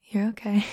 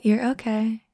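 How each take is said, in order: First: Whispered. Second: Said in the usual way. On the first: Acted. Reassuring a nervous friend, whispered. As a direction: repeat it as a breathy whisper.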